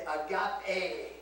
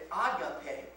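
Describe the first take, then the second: First: Agape ending on a long "ay"; agape with the final E held as "ay"; Koine pronunciation. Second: Agape as some people say it; agape in the secular Greek way of today; modern Greek pronunciation. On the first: Pastor teaching the Koine word, agape with a long final "ay". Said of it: "And so you would say agape". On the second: Pastor quoting how some people say it, agape in modern Greek pronunciation. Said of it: "Some people say agape". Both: Shown as a demonstration.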